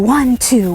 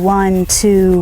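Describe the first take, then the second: First: The counting is quicker and more energetic. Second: The counting is slower and calmer. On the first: The horse is asked for a bigger trot. "if I want a bigger trot" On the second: The horse is asked to go slower. "Not only did my voice slow down"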